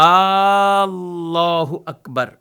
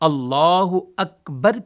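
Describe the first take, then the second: First: The opening vowel is drawn out long. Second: The opening vowel is short. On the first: The speaker calls it wrong. "शुरू में तो खड़ा ज़बर नहीं है" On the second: The speaker calls it right. "की जगह"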